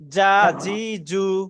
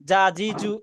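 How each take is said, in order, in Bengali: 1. স্বরধ্বনিগুলো টেনে পড়া হয় আর দীর্ঘ। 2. স্বরধ্বনিগুলো ছোট আর দ্রুত। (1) "আ উচ্চারণ সহি করার জন্য একটু টান দিয়ে পড়ি" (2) "হরকত কিন্তু তাড়াতাড়ি পড়তে হয়। জা জি জু এরকম হওয়ার কথা ছিল"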